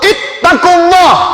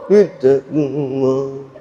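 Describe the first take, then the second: First: It is said loudly and forcefully. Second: It is said quietly and limply.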